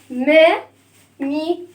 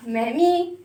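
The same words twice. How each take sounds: First: Said in the usual way. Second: "ما، مي" run together more quickly; faster. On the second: Shown as a demonstration. Teacher drilling the syllables faster, quicker pace. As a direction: say "ما، مي" with less gap. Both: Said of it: "أسرع".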